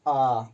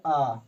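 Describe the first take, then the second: First: आ held out as a long vowel. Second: आ as the shorter vowel sound. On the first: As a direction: stretch आ for extra time. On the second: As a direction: keep the vowel आ brief. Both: Shown as a demonstration. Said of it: "उससे अधिक समय लगता है दीर्घ स्वर में".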